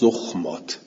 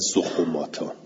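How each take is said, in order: First: The kh and m sounds join with no vowel. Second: A u vowel comes between kh and m. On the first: The speaker calls it right. "جمع زخمه میشه زخمات" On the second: The speaker calls it wrong. "نه زخوماتا"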